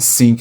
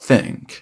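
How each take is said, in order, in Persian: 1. کلمه بدون صدای th شروع میشه. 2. کلمه با صدای th شروع میشه. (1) "نمیگم think" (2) "میگم think"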